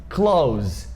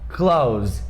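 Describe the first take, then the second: First: The ending has a 'th' sound joined to 's'. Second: The same.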